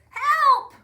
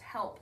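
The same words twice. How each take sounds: First: It is said loudly with strong feeling. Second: It is said flatly, without much feeling.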